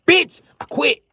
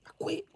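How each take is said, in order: First: Very high, loud yell; hammed-up high outburst; shouted quitting. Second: High, soft whispered echo; small hushed squeak; whispered quitting. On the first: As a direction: scream it in mock fury. Acts out quitting as father. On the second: Acted. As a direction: whisper it after the outburst. Hushed repeat of shouted quitting.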